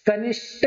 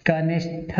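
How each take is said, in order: First: कनिष्ठ ending in an unaspirated "sht"; the mistaken कनिष्ठ with a hard plain ट; wrong pronunciation. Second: कनिष्ठ said slowly, ending in an aspirated "shth"; correct pronunciation. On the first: Teacher showing the wrong form, "kanisht". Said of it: "कनिष्ठ नहीं होता". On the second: Teacher slowly modelling the right form, "kanishth". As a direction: stretch out कनिष्ठ and breathe the final ठ. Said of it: "कनिष्ठ होता है, ठा, ठठेरे वाला". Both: Shown as a demonstration.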